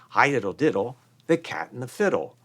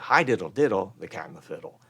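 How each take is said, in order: First: The voice lifts upward through the phrase. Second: The voice drops downward through the phrase. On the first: It feels optimistic and carries the listener forward. "They lift" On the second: It feels pessimistic and flat. "They probably didn't say"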